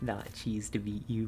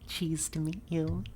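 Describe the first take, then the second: First: It is said in her normal voice. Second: It is said in a high-pitched anime-girl voice.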